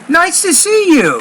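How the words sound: It is said with lively, happy emotion. The speaker calls it right. "You got to put that emotion in your voice"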